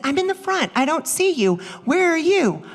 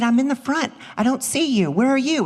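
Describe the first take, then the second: First: Higher, louder, baffled echo. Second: Louder, puzzled phone question; friend's puzzled call. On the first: Mom at the wrong theater echoing her friend, higher and louder. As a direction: throw the same words back higher. Same words echoed, higher. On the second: Friend in the front of the theater, puzzled and raised. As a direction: ask where she is, a touch raised. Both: Retold or imitated.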